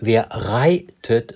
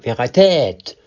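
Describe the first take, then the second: First: The stress is on the first syllable of reitet. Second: The stress is on the second syllable of reitet. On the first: The speaker calls it right. "Wenn es am Anfang immer heißt" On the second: The speaker calls it wrong. "so kann man nicht sagen"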